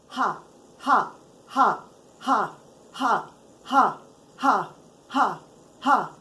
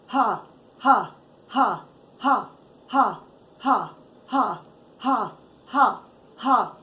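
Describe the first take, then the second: No difference in how they are said.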